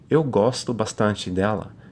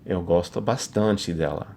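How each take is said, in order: First: It is said in a plain, friendly tone. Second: It is said in a romantic, suggestive tone.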